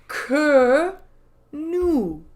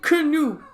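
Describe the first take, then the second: First: The words are slower with a small gap. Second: The two words are run together quickly. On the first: The speaker calls it right. "Say it slower. Say it with a space in between" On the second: The speaker calls it wrong. "stop saying canoe"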